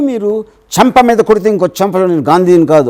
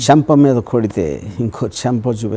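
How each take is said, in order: First: It is said with anger. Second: It is said with swagger.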